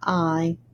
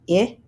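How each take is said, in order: First: The vowel is the long i sound. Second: The vowel is the short i sound. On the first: "to I" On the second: "This E changes the I from I"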